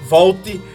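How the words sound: The word is said with a Paraíba accent. His regional origin gives itself away. "E aí vem o ti da Paraíba lá atrás"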